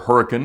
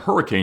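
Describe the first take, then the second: First: Hurricane is said the way the locals say it. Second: Hurricane is said the general, widespread way.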